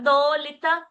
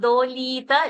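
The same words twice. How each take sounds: First: The vowel in 'li' is short. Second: The vowel in 'li' is long. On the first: The speaker calls it right. "li short dolita" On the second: The speaker calls it wrong. "not dolita"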